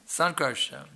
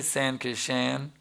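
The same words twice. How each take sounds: First: Said in the usual way. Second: "San Kishan" drawn out slowly, mangling the name; garbled slow "San Kishan"; mispronounced name. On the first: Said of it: "Pronounce their name correctly". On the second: Shown as a demonstration. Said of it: "If you mispronounce my name".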